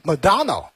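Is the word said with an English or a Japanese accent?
English. It is said with an English accent. "发音英文的话是"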